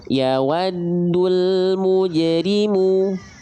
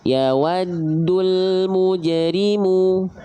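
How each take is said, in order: No difference in how they are said.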